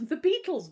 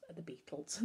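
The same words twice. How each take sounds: First: High, loud astonished question; shocked friend repeating the word; surprised question. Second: Said in the usual way. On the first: A narrator's reading. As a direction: blurt it out in disbelief. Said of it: "Bertolt asked".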